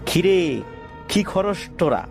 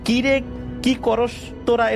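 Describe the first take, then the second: First: It is spoken in a nasal, twangy voice. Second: It is spoken in a plain, ordinary voice. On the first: "নাকে সুরে বলে ওঠে" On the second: "এটা না"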